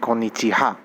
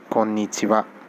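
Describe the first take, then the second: First: The final syllable is pronounced ha. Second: The final syllable is pronounced wa. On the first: The speaker calls it wrong. "many of you may think that this shouldn't be konnichiwa, this should be konnichiha" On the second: The speaker calls it right. "it is pronounced as wa"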